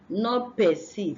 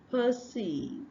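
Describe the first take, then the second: First: The first vowel is an a sound. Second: The first vowel is an uh sound. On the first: The speaker calls it wrong. "not this a sound" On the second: The speaker calls it right. "this uh"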